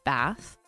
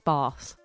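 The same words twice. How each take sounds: First: The vowel is a short, flat North American A. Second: The vowel is a long, broad English A. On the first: "we really want to say Bath with a harder A. That's wrong" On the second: "I feel like I'm faking an English accent"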